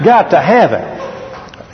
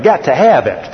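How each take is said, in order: First: Slow, drawn-out Got to have it; mock longing, dragged out; slow craving. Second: Said in the usual way. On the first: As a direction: stretch every word like you crave it. Mocking his own craving.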